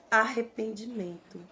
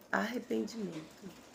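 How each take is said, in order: First: Said in the usual way. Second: "Arrependimento" repeated much softer, with a different timbre; a hushed repeat of "Arrependimento"; soft echo. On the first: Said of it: "repeated for emphasis". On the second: Shown as a demonstration. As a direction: let "Arrependimento" fall away quietly. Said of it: "soft echo of the word".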